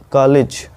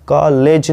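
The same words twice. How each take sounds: First: "कॉलेज" ending in a quick "lij"; correct COLLEGE. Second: "कॉलेज" with a drawn-out "layj"; wrong COLLEGE. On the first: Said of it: "ला पे छोटी की मात्रा". ("कॉलेज" का अंत छोटी इ से) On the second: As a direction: stretch "कॉलेज" into "kaa-layj". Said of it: "कॉलेज नहीं". ("कॉलेज" में लंबा "लेज") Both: Shown as a demonstration.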